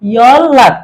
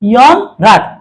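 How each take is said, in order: First: The middle consonant is a double l sound. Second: The middle consonant is an n sound. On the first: The speaker calls it right. "রিউলের পরে রিউল আসলো ল" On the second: The speaker calls it wrong. "এটা উচ্চারণটা ভুল"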